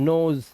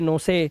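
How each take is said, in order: First: The final e is silent. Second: The final e is pronounced as a syllable. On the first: The speaker calls it right. "इसे ओ से पढ़ना है" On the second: The speaker calls it wrong. "अब ऐसा नहीं पढ़ सकते आप"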